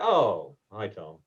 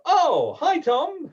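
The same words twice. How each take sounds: First: The greeting sounds low and glum. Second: The greeting sounds warm and happy.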